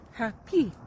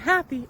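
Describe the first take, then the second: First: The stress is on the second syllable. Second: The stress is on the first syllable. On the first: The speaker calls it right. "the emphasis on the second syllable" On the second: The speaker calls it wrong. "It's not happy"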